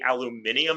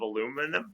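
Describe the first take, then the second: First: It is said with a British pronunciation. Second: It is said with an American pronunciation. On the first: "my wife will say aluminium" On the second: "instead of aluminum"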